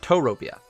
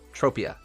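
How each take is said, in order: First: The name is said the Japanese way. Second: The name is said the English way. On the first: The speaker calls it wrong. "not Toropia. But in Japanese, you would say Toropia" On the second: The speaker calls it right. "It's Tropia"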